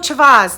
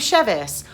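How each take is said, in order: First: The first syllable has the vowel of 'father'. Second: The first syllable has the vowel of 'bed'. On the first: Someone else gets the name wrong. The speaker calls it wrong. "How do you get Chavaz out of Chevis?" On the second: The owner of the name says it. The speaker calls it right. "I will say, "Hi, I'm Chevis.""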